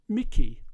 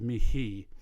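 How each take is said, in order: First: The middle consonant is a hard k sound. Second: The middle consonant is a breathy h sound. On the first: The speaker calls it right. "the H would become a hard K" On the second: The speaker calls it wrong. "which is a little bit English"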